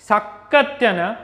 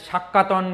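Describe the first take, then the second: First: The middle is pronounced 'tya-ya' before the end. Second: The middle is pronounced 'ta' before the end. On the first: The speaker calls it right. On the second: The speaker calls it wrong.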